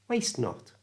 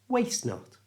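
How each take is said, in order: Both takes have the same delivery.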